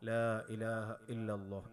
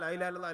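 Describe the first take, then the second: First: It is said slowly with each sound clear. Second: It is said quickly with the sounds slurred together. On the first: It is said calmly and with intention. The speaker calls it right. "അങ്ങനെ സാവകാശം ചൊല്ലണം" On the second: It is said only to finish a count. The speaker calls it wrong. "അതിൽ കാര്യമില്ല"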